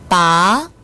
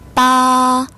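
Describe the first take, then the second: First: The pitch rises from mid to high. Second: The pitch stays high and level. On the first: It means to pull out. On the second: It means eight.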